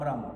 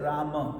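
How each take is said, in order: First: The final ma syllable is dropped. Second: Both syllables are pronounced, ending in ma. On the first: The speaker calls it wrong. "not Ram Ram" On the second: The speaker calls it right. "notice I said Rama"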